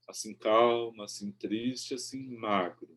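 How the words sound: It is read with a measured, melodic verse rhythm. The speaker calls it right. "Eu digo como um verso"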